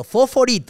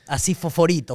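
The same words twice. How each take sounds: First: Fosforito said higher and louder, punched; emphatic repeat. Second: Said in the usual way. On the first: Shown as a demonstration. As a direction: hit the word fosforito hard, up high.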